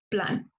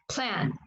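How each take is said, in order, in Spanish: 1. La p se libera sin soplo de aire. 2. La p se libera con soplo de aire. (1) "en español yo diría plan" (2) "Y en inglés, plan. Igual se siente la aspiración"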